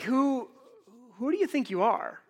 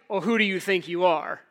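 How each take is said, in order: First: It is said as a sincere, searching question. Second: It is said as an accusing challenge.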